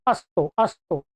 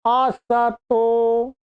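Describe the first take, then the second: First: अस्तो said with a half स, no vowel after it; mock wrong pronunciation. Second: असतो said very slowly with a full a after स; correct pronunciation. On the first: Teacher imitating a common mispronunciation, lower voice. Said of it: "उच्चारण कर अस्तो". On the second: Teacher giving the right form after the wrong one, slow. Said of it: "स में अ है". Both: Shown as a demonstration.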